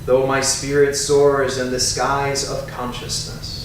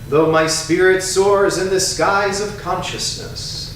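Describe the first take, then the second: First: It is spoken softer, in a normal voice. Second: It is spoken in a loud, strong voice. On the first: "A little softer in a normal speaking voice" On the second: "first in a strong voice"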